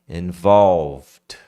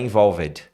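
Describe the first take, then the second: First: The ending goes straight from V to a D sound. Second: The -ed ending is said as a separate syllable. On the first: The speaker calls it right. "Sai do V, involve, do V, vai pro D" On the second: The speaker calls it wrong. "Esse ed aqui você não fala, tá? Não é involved"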